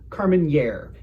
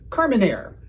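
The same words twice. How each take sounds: First: The final syllable starts with a 'ny' sound. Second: The final syllable has no 'ny' sound. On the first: The speaker calls it wrong. "If you say nye and you're not a cartoon Russian, you're saying it wrong" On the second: The speaker calls it right. "It's Carmenere"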